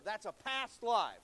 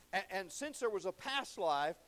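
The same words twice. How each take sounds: First: Past life slowed, leaned on and louder; stress on past. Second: Said in the usual way. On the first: Shown as a demonstration. Preacher stressing past to the congregation, slow and loud. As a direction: lean hard on the word past. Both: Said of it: "He emphasizes that word past".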